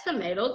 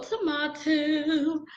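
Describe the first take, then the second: First: "tomato" said as tomayto, American ay vowel. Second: "tomato" drawn out slowly as tomahto, ah vowel. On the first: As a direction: say "tomato" with the ay sound. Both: Shown as a demonstration. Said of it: "however you wanna say it".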